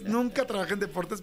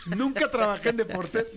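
First: Said in the usual way. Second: Says it through laughter; host laughing off the skit, slower. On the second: Real, not acted. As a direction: laugh out the words. Laughing at the joke.

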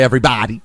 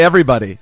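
First: "everybody" with a wide-open "bah-dy"; mimicked pronunciation of everybody. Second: "everybody" with a short "buh" in "buddy"; usual pronunciation of everybody. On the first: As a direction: tease her by stretching the "bah" in "everybody". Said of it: "You say everybody". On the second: Shown as a demonstration. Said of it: "'Cause you don't say everybody".

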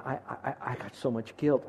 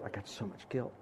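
First: Soft stammering guilt; retold sobbing. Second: Guilt fading to almost nothing, much softer; retold sobbing. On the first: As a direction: quietly voice her broken words. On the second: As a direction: let the words die away softly. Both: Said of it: "And she's sobbing, saying".

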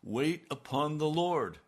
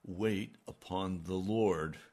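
First: Higher and louder, slow and pressing; pressing the divine command harder; insistent command. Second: Slow and measured, each word set down; slow, solemn command. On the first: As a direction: repeat the command with force this time. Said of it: "But he said". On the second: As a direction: lay the command down gently and slowly. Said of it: "And he said". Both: Retold or imitated.

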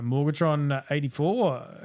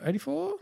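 First: Said in the usual way. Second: EIGHTY-FOUR rising steeply to a high questioning pitch. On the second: Real, not acted. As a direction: check "Eighty-four?" with a big upward lift. Checks the number with co-host.

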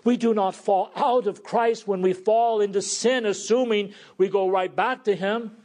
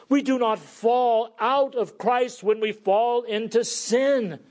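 First: Raised, ringing sermon proclamation; preaching. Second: Higher, ringing repeat of the key line; preaching. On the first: Preacher declaring the gospel to his flock, with full force. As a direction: proclaim it to the congregation. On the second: Preacher repeating his key truth to the church, louder. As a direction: drive the truth home to the congregation. Repeats the opening declaration, stronger. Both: Acted.

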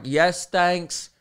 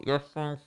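First: Higher, unmuffled YES, THANKS; clear repeat. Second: Soft, indistinct reply through a mask; muffled. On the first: Customer repeating himself to the clerk, clear and emphatic. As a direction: say yes, thanks clearly for someone who misheard. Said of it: "Sorry, what?". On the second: Customer answering clerk's question, muffled by mask. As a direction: garble it behind thick cloth. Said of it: "makes it twice as muffled". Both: Retold or imitated.

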